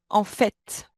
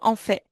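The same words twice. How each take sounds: First: The final T sound is pronounced. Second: The final T sound is silent. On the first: The speaker calls it right. "Mais ici, celui-ci se prononce" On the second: The speaker calls it wrong. "Vous pouvez pas me dire en fait"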